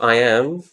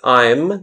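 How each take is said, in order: First: It is said as two full separate words. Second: It is said as one short contracted syllable. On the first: The speaker calls it wrong. "not I am" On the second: The speaker calls it right. "Such as I'm"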